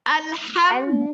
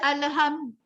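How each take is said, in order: First: The lam is closed with no vowel after it. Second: The lam is given a vowel after it. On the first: The speaker calls it right. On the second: The speaker calls it wrong.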